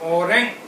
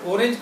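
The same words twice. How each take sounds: First: It is said with a German pronunciation. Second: It is said with an English pronunciation. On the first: "German में बोलते हैं ऑरेंज" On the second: "English में pronunciation ऑरेंज बोलते हैं"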